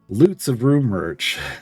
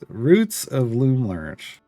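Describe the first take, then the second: First: The first word starts with L, the third with R. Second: The first word starts with R, the third with L. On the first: The speaker calls it wrong. "I used to mispronounce it. ... I would get it backwards" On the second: The speaker calls it right. "but it's it's the Loots Roots of Loom Lurch"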